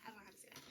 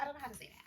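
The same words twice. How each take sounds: First: Whispered aside. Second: Said in the usual way. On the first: Real, not acted. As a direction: drop to a whisper.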